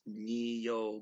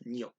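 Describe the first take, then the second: First: The word is said as two separate syllables. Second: The word is said quickly as one syllable. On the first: "theoretically it's neo" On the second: "but say it quickly"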